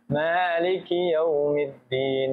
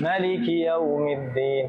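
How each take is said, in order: First: The first vowel of maliki is long. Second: The first vowel of maliki is short. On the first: This is the reading commonly used here. "Kita kan Maliki yaumiddin dengan alif" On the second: This is another reading tradition. "Agar bisa mengakomodir riwayat Warsh"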